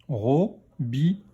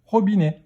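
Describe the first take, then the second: First: Slow "Robinet", split into ro, bi, nè; syllable by syllable. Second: Said in the usual way. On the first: Shown as a demonstration. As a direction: sound out "Robinet" in three beats. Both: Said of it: "Troisième syllabe".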